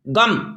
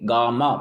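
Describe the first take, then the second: First: The final m is bare, with no vowel. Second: The final m carries a full vowel. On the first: This is the Hindi pronunciation. "आधा म उच्चारण करते हैं" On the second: This is the Odia pronunciation. "पूरा म को म की तरह उच्चारण करना"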